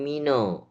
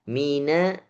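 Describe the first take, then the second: First: The final vowel is rounded like an o. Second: The final vowel is thin with lips spread. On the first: The speaker calls it wrong. "bukan mino" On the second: The speaker calls it right. "Na-nya ditipiskan lagi. Mina bukan mino"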